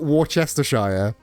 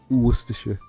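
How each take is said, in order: First: Every syllable is pronounced with careful effort. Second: The syllables are reduced and run together loosely. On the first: The speaker calls it wrong. "It's not Worcestershire" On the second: The speaker calls it right. "just get real lazy with it"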